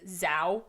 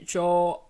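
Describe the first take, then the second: First: The name is said with an 'ow' vowel. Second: The name is said with Chinese sounds. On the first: The speaker calls it wrong. "that's definitely not right" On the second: The speaker calls it right. "his Chinese pronunciation"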